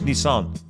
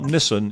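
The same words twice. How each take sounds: First: It is pronounced in a Japanese style. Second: It is pronounced in an English style. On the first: This is how the name is really said. The speaker calls it right. "It's a Japanese name" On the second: This is how people here usually say it. The speaker calls it wrong. "It's not Nissan"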